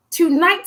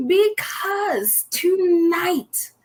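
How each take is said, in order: First: Said in the usual way. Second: Slow, higher, stretched "tonight" with a break of feeling; drawn-out tonight. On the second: Acted. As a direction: stretch "tonight" out slowly and high, as if close to tears. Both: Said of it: "I just might cry today".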